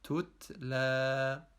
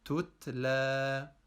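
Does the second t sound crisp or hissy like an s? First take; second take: crisp; crisp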